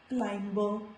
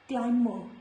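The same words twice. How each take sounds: First: The B after the M is pronounced. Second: The B after the M is silent. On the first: The speaker calls it wrong. "not climber" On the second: The speaker calls it right. "This is climber"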